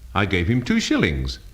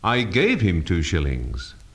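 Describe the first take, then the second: First: The stress falls on the word shillings. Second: The stress falls on the word gave. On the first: The coins were shillings, not pounds. "not pounds" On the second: It was given, not lent. "not lent him"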